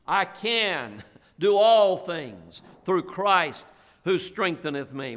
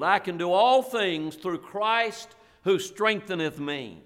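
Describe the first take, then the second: First: Each word of "I can do all things through Christ" laid down slowly; slow memory-verse recitation with weight on "all"; slow, deliberate recitation. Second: Said in the usual way. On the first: Shown as a demonstration. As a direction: say it slowly, as if helping them memorize. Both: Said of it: "That's a good verse to memorize".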